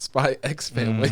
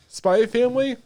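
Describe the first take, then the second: First: The title is said with the X. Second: The title is said without the X. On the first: The speaker calls it right. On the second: The speaker calls it wrong.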